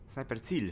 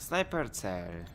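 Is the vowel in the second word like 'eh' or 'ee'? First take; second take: ee; eh. First: The second word has a long 'ee' vowel. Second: The second word has a short 'eh' vowel.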